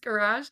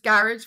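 First: Garage is said with a non-Irish pronunciation. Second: Garage is said with an Irish pronunciation. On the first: "versus Garage" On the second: "Because I'm Irish, it's Garage"

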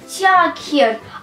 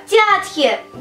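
First: Every written letter is sounded, like tee-a-ker. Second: Every written letter is sounded, like tee-a-ker.

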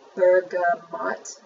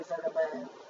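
First: The final T sound is pronounced. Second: The final T sound is silent. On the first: The speaker calls it wrong. "I have a funny feeling that's not the way you pronounce this" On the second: The speaker calls it right. "Put that T silent"

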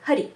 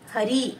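First: The final vowel is said short. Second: The final vowel is said long.

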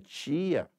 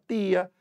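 First: It is said in a Rio de Janeiro accent. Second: It is said in a Sergipe accent. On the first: "no Rio de Janeiro é minha tia" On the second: "aqui a gente fala tia"

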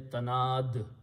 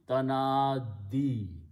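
First: The word ends on a bare consonant. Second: The word ends with a final 'ee' vowel. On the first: The reader stops at this word. "When you stop, you say tanad" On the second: The reading continues without stopping. "when you read them together"

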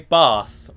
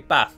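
First: Bath is said in a southern English accent. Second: Bath is said in a northern English accent. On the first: "I say bath" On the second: "people in the north of England say bath"

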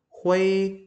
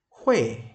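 First: The pitch stays high and level throughout. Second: The pitch falls sharply from high to low. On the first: "Thanh một" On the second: "thanh bốn"

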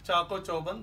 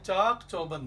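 First: The first word ends in an 'o' vowel. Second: The first word ends in a consonant. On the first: The speaker calls it wrong. "चाको चौबंद दुरुस्त नहीं है" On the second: The speaker calls it right. "चाक चौबंद है"

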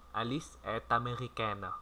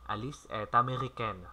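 First: The sentence is said slowly and clearly. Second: The sentence is said at normal conversational speed. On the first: "Đó là tốc độ chậm mà rõ" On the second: "Chúng ta cùng nói tốc độ bình thường"

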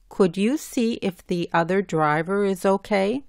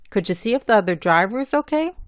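First: Each word is pronounced carefully and separately. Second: It is spoken quickly with the sounds run together. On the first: "hablando bien" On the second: "Hablando rápidamente y juntando las letras"

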